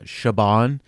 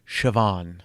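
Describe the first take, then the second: First: The name is said like 'Shaban'. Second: The name is said like 'Shivawn'. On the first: The speaker calls it wrong. "A lot of people would pronounce it uh" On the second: The speaker calls it right.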